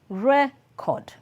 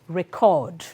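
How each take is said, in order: First: The stress is on the first syllable. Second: The stress is on the second syllable. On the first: It names a thing. "the noun is always stressed on the first syllable" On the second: It names an action. "the verb is record"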